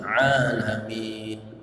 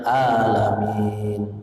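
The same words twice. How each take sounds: First: It starts with a pressed throaty sound. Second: It starts with a plain glottal stop. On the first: The speaker calls it right. "ain ditekan sedikit" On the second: The speaker calls it wrong. "Jangan alamin. Itu hamzah"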